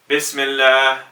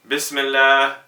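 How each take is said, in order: Both takes have the same delivery.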